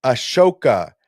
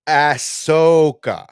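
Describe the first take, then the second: First: Ashoka, light "uh" then stressed SHO. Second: Ahsoka as "ASS-SOH-kah", loud and drawn out; slow, high, overdone ASS-SO-ka for Ahsoka; Ahsoka mispronounced. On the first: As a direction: say Ashoka with a clear sh in the middle. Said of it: "not Ahsoka". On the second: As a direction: exaggerate the wrong Ahsoka: hard "ass", long "sooo". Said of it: "It's Ashoka, not". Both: Shown as a demonstration.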